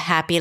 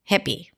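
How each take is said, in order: First: The first vowel is the open 'a' sound. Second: The first vowel is not the open 'a' sound. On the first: The speaker calls it right. "instead of" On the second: The speaker calls it wrong. "you find yourself saying"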